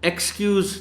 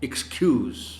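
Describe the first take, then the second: First: The stress is on the first syllable. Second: The stress is on the second syllable. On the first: The speaker calls it wrong. "Excuse नहीं कहा जा सकता" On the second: The speaker calls it right. "Stress आप देख रहे हैं, सुन रहे हैं कि सी पर है"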